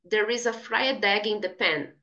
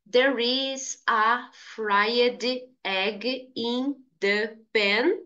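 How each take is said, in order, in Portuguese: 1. As palavras fried e egg são ditas juntas, de forma fluida. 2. As palavras fried e egg são ditas separadamente. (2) "Em vez de dizer"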